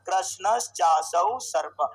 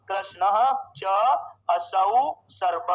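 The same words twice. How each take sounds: First: कृष्णश्चासौ run together as one word, slow and low; fuse कृष्ण, च, असौ into कृष्णश्चासौ, drawn out; joined with sandhi. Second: कृष्ण, च, असौ, सर्प slow and low, pauses between; separated word by word. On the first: Teacher showing the sandhi form, slow joined pronunciation. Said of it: "संधि का विग्रह करना चाहेगा". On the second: Teacher splitting the compound for students, slow separated words. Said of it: "दूसरा विग्रह करो इसका". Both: Shown as a demonstration.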